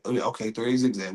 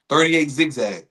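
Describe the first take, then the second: First: Lower, softer repeat of the call; low, unsure echo of the coach; muted acknowledgement. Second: Said in the usual way. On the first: Acted. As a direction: take the play in quietly. Acted player repeats the play.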